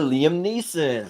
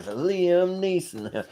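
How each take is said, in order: First: Said in the usual way. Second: Drawn-out name. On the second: Pretend. Fan naming a favourite sketch, drawing "Liam Neeson" out slowly.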